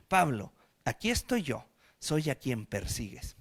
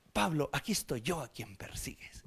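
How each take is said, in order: First: Voice of the Lord. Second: Hushed whisper, lower, softer; a solemn whispered Bible line; whispered proper version. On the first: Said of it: "se le aparece al Señor y le dice". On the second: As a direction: whisper it like formal scripture. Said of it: "Entonces pon". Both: Acted.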